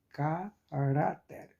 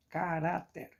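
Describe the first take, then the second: First: "caráter" slowly split, ca, then a long rá-ter; syllable-by-syllable stress. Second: "caráter" in one go, stressed on rá; stress on middle syllable. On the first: Teacher helping students hear the strong syllable, syllable-by-syllable stress. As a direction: break up "caráter" slowly, drawing out rá. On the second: Teacher giving a paroxítona example, stress on middle syllable. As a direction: say "caráter" whole, weight on the middle rá. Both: Shown as a demonstration. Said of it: "Qual a mais forte?".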